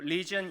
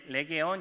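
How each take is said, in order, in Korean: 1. 이 단어는 두 음절로 발음돼요, lee-jun. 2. 이 단어는 세 음절로 발음돼요, le-ge-on. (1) "영어로도... 리전 이렇게 발음이 다르게 되는데" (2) "레게온 이렇게 이야기하는 당시의 군사 용어"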